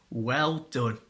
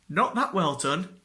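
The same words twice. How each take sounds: First: Said in the usual way. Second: That pushed up with a rising tune; stress on that. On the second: Retold or imitated. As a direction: lean on that to undercut "well done".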